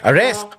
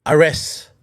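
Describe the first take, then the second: First: The word ends with a clear final T sound. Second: The word ends without a final T sound. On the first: The speaker calls it right. "May T yun" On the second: The speaker calls it wrong. "Wala man lang T"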